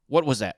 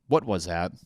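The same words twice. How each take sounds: First: A startled "What was that?", higher and louder; "What was that?" with a jumpy, spooked rise. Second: Said in the usual way. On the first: Shown as a demonstration. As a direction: jump at a noise and blurt "What was that?". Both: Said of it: "what I say in my brain".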